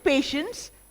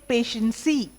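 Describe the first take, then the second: First: The word ends on the S sound. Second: An extra vowel sound is added at the end. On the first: The speaker calls it right. "the E is silent" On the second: The speaker calls it wrong. "they say patiency, which is very wrong"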